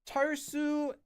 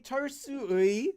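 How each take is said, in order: First: The last syllable is a plain "e" sound. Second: The last syllable is a gliding "ui" sound. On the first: It sounds ordinary and natural. The speaker calls it right. "just say it as A and you'll be completely fine" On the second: It sounds overly fancy. The speaker calls it wrong. "if you pronounce it the way it's written"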